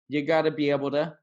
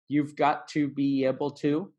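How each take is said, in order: First: The words are shrunk and blended into one stream. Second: Each word is pronounced clearly and separately.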